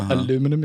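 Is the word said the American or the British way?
American. The word is said with four syllables.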